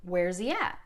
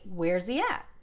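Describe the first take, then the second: First: The words are contracted and run together quickly. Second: The words are contracted and run together quickly.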